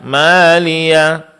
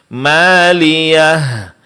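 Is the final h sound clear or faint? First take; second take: faint; clear. First: The final h is weak and unclear. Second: The final h is clearly pronounced. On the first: The speaker calls it wrong. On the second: The speaker calls it right.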